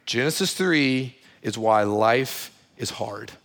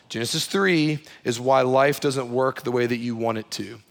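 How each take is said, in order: First: Spelling it out for the congregation, slow; slow and simple. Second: Said in the usual way. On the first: Shown as a demonstration. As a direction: stress on "three", slow and deliberate. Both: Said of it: "let me put this really simply".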